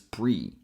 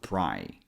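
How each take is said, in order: First: The vowel sounds like 'ee'. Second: The vowel sounds like 'eye'. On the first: The speaker calls it wrong. "we're not pronouncing this as pre" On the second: The speaker calls it right. "We have to go with pry"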